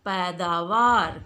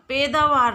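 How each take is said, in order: First: The first vowel sounds like 'ai'. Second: The first vowel sounds like 'e'. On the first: The speaker calls it right. "शुद्ध शब्द क्या है" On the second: The speaker calls it wrong. "पैदावार नहीं होता बच्चों"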